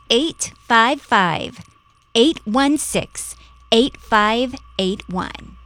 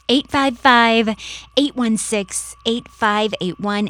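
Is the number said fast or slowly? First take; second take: slowly; fast. First: The number is said slowly. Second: The number is said fast.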